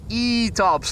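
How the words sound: It is said in a Yorkshire accent.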